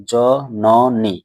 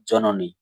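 First: জননী very slowly in three separate beats; split into syllables. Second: Said in the usual way. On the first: Shown as a demonstration. Teacher showing a three-syllable word, জননী split in three. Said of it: "এখানে কয়টি দল রয়েছে". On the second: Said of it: "তিনটি দল রয়েছে এমন একটি শব্দ".

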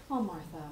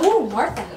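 First: Fond sigh. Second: High, loud gushing "Ooh, Martha"; swooning ooh. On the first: Speaker showing how people say her friend's name, soft fond sigh. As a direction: breathe "Oh, Martha" like a fond sigh. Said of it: "you just don't say Martha, you go". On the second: Speaker showing how people gush over her friend's name, swooning. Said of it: "Or you go". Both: Shown as a demonstration.

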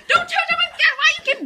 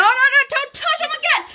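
First: Laughing angry plea. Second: High, laughing warning; laughing angry plea. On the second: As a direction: warn him through laughter. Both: Real, not acted. Brother touching his toys.

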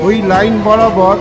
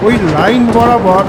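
Both takes have the same delivery.

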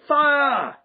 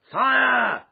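First: Very high, loud, sustained shriek. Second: Loud, high, drawn-out shout; cry of alarm. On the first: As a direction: shriek it like a whole panicked crowd. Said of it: "joined in a general shriek of". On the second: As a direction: yell a long alarm across the room. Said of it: "with a cry of". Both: A narrator's reading.

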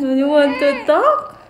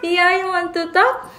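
First: High, very slow, louder sing-song coo. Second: High, slow sing-song coo to an infant. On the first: Mother coaxes her baby to talk, in a slow, high, loud coo. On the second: Mother coos at her drooling baby in a high, slow sing-song. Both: Real, not acted.

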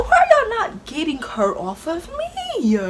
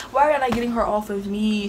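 First: High, slow desperate wail, half laughing; high pleading wail. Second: Said in the usual way. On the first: Retold or imitated. Retelling the fight, she wails for help high and slow.

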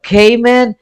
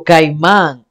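First: Cayman said the English way, KAY-man, slowly. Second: Caimán said the Spanish way, kai-MAN, stress on the last syllable; Caimán with a Spanish accent on the final A. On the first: Contrasting the spelling for viewers, slow English Cayman. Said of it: "the way that he spelled it there doesn't look like Spanish". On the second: Explaining a song title to viewers, Caimán in Spanish. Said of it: "la manera que se le trae en español Caimán". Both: Shown as a demonstration.

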